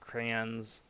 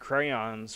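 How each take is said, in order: First: The Y glide is dropped, sounding like 'crans'. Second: The Y glide in the middle is clearly pronounced. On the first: "most people just have it drop off, like, and then say it like it's C R A N S" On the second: "it's supposed to be crayons with where you enunciate the Y"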